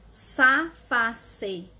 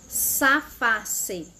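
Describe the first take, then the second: Both takes have the same delivery.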